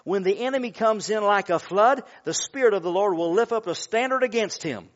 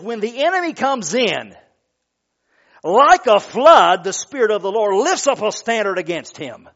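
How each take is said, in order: First: The pause comes after 'like a flood'. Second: The pause comes after 'comes in'.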